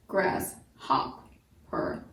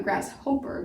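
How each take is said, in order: First: GRASSHOPPER slowly split as grass, hop, per; short O, by syllables. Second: GRASSHOPPER softly said grass-HOPE-er; long O mispronunciation. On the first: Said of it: "Now pronounce it". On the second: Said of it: "not grasshopper". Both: Shown as a demonstration.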